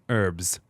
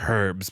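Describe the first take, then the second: First: The word starts with no H sound. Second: The word starts with an audible H sound. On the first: The speaker calls it right. "Put that H away" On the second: The speaker calls it wrong. "not herbs. Put that H away"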